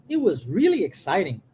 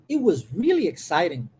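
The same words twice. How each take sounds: Both takes have the same delivery.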